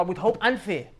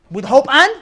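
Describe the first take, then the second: First: Said in the usual way. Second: Loud "With hope and", rising on "and"; prompting rise. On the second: Real, not acted. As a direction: leave "and" hanging high for listeners to finish. Prompts listeners to finish phrase.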